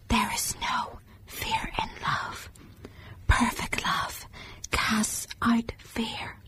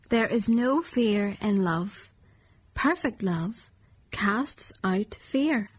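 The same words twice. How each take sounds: First: It is whispered quietly. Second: It is said at normal volume.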